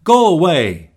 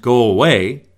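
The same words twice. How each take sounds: First: Sharp, louder and higher dismissal; upset. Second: Said in the usual way. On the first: Shown as a demonstration. Upset person sending someone away, sharp and loud. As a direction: snap it like slamming a door. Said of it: "Someone's upset". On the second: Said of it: "but it wasn't".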